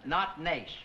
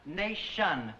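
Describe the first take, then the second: First: Some syllables of the word are clipped. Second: Every syllable of the word is fully pronounced. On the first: The speaker calls it wrong. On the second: The speaker calls it right. "Pronounce all the syllables"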